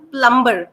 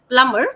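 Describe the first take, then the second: First: It is said in an Indian English accent. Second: It is said in a standard English accent. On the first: "showing plumber as the Indian English" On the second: "rather than plumber"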